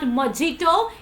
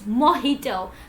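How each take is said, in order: First: The middle consonant is a J sound. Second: The middle consonant is an H sound. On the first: The speaker calls it wrong. "There is no ja sound while you pronounce this word" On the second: The speaker calls it right. "you always have to pronounce ha sound"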